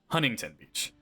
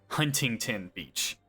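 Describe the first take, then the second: First: Some sounds in the name are skipped over. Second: Every sound in the name is fully pronounced. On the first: This is how a Californian says it. "I pronounce it Huntington Beach. I kind of skip over it" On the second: This is the standard pronunciation. "It's actually pronounced"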